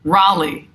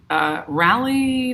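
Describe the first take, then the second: First: Raleigh said with an ah vowel, RAH-lee, firm; corrected Raleigh. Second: Raleigh said with a short a as in rally, slow and unsure; mispronounced Raleigh. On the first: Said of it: "Oh, thank you". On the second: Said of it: "Oh, thank you. Raleigh". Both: Shown as a demonstration.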